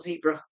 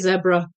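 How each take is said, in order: First: Zebra is pronounced a non-British way. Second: Zebra is pronounced the British way. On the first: "not zebra" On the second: "The British say zebra"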